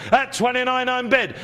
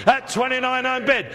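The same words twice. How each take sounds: The two takes are said the same way.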